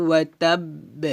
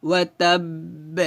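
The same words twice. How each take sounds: Both takes have the same delivery.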